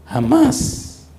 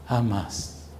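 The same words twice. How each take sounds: First: High, loud cry of jamás; jamás rising high and loud; emphatic cry. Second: Quiet falling jamás; soft hush. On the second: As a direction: let jamás fall to a soft whisper. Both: Acted. Emphatic repetition of never.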